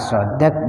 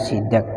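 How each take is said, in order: First: The first vowel is an open a sound. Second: The first vowel is a front i sound. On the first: The speaker calls it right. "di fathah shotnya" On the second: The speaker calls it wrong. "di kasroh sidak"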